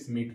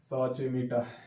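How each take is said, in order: First: The name is said as one short syllable. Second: The name is sounded out in three syllables. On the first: The speaker calls it right. "इसको पूरा का पूरा हम लोग स्मिट पढ़ेंगे" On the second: The speaker calls it wrong. "तो ऐसा पढ़ने का जरूरत नहीं है"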